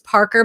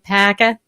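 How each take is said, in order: First: The name is said with a clear r sound. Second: The name is said without r, New England style.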